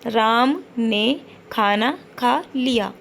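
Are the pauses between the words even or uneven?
even. The gaps between the words are even. The speaker calls it right. "तो हमें कैसे बोलना है"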